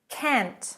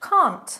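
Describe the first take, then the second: First: The vowel is short, like in 'cat'. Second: The vowel is a long, open 'ah'. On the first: "I'm going to start with American English" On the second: "But in British English"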